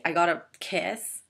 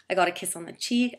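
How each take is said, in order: First: "got" pushed out slower with a rise; slow emphatic "I got a kiss", "got" stressed. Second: Said in the usual way. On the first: Real, not acted.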